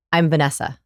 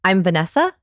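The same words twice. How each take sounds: First: "Vanessa" falling to a settled end; downward inflection. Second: "Vanessa" climbing hard into a question; question inflection. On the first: Coach showing the right introduction, falling and certain. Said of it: "use the downward inflection". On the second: Coach overdoing the wrong introduction, questioning rise. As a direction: exaggerate the upward lift on "Vanessa". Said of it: "do it even more hard". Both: Shown as a demonstration.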